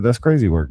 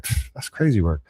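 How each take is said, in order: First: Said in the usual way. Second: Quiet, scoffing reaction with a pfft; dismissive pfft. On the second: Retold or imitated. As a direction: brush it off under your breath. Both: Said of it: "That's why I reacted that way".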